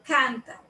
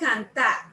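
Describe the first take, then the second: First: The stress is on the first syllable. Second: The stress is on the last syllable. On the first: The speaker calls it right. "en can yo hago la mayor fuerza" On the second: The speaker calls it wrong. "Yo no digo cantar"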